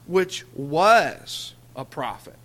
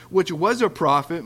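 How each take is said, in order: First: "was" stretched slowly and louder, marking the past tense; stress on was. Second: Said in the usual way. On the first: Shown as a demonstration. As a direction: lean on "was", slow the whole phrase right down. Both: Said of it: "did you notice how they put that in a past tense".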